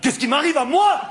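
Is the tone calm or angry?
angry. It is said in a more irritated tone.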